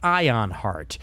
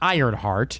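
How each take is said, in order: First: It is said with no R sound, like ion. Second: It is said with an R sound, like iron. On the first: It names the book being presented. The speaker calls it right. "There's no R" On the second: It names a different, unrelated work. The speaker calls it wrong. "Not Ironheart. That's something different. Ironheart is Marvel"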